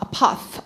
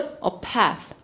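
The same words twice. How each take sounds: First: It is said in a British accent. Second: It is said in an American accent. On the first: "영국 사람" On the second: "미국 애들은 a path, a path 이렇게 나오고"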